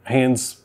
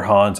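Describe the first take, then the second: First: "Haynes" with a long AY vowel; pronunciation Haynes. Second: "Hans" with an open AH vowel; alternative pronunciation Hans. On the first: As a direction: say "Haynes" to rhyme with "canes". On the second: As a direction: offer "Hans" with AH instead of AY. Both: Shown as a demonstration. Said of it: "I don't know how it's pronounced".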